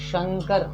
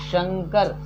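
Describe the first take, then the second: Both takes have the same delivery.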